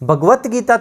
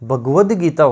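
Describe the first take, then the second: First: The first word ends with a t sound. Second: The first word ends with a d sound. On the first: The speaker calls it wrong. "थोड़ी होता है" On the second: The speaker calls it right. "होता है"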